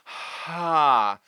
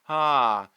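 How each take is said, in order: First: Air flows audibly before the vowel begins. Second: The vowel starts smoothly without breath or catch. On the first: "There is an aspirate where we're letting the air move through first" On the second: "There is a balanced one where the air and muscle start more together"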